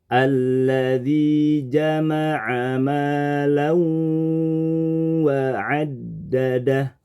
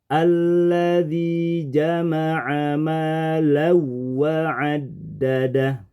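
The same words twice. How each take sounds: First: A held nasal sound merges into the w. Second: The nasal sound is dropped and rushed. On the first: The speaker calls it right. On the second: The speaker calls it wrong. "Kemudian kita merubahnya jadi tanpa gunnah"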